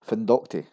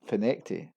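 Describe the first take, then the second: First: The name is read out letter by letter. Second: The name is said in its local form. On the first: The speaker calls it wrong. "we have findocti" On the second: The speaker calls it right. "It's actually pronounced as finecti"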